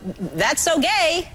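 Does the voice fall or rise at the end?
rise. The pitch rises at the end of the phrase. It is meant as a compliment. "It doesn't sound like"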